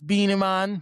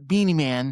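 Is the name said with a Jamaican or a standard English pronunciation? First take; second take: Jamaican; standard English. First: The name is said with a Jamaican pronunciation. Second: The name is said with a standard English pronunciation. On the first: The speaker calls it right. "you gotta say it right" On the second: The speaker calls it wrong. "not Beanie Man"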